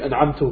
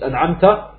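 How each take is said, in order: First: The word ends with a 'u' vowel. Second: The word ends with an 'a' vowel. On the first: The speaker calls it wrong. "habe ich an'amtu gesagt. Das ist ein großer Lahn" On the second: The speaker calls it right. "Anstatt an'amta"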